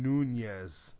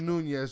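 First: The middle consonant is a plain n sound. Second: The middle consonant is a palatal ny sound. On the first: The speaker calls it wrong. "you're saying it like a non-Spanish person" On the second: The speaker calls it right. "Just say it with a nye"

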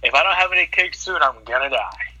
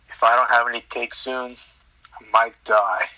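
First: It is said expressively, like Stanley. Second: It is said in a flat Kevin-like monotone.

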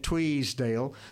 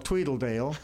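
First: An extra S sound is added to the name. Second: An extra L syllable is added in the middle. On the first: "put an S in it" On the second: "put an extra L"

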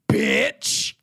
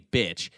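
First: The word is said harshly and aggressively. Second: The word is said plainly and calmly. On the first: "It was the most aggressive, like, the most needlessly aggressive bitch" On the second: "they didn't just say bitch"

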